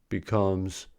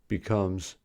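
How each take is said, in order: No difference in how they are said.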